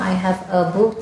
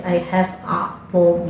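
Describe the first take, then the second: First: Said in the usual way. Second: "a" in "I have a book" as a long "aa"; slow learner's accent, drawing out "A"; students' ingrained accent. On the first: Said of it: "Jadi sama". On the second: Retold or imitated. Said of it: "Logatnya udah menyatu". (logat murid, "a" dibaca "aa" panjang)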